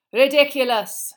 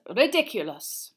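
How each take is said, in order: First: Chanted, high, very loud, drawn-out chorus; chanted, belt it out like a whole class repeating; class chanting back. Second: Slow, clear, louder incantation; spell demonstration. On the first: A narrator's reading. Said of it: "said the class together". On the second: Acted. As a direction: model the word RIDICULOUS slowly and loudly. Teacher models spell for class.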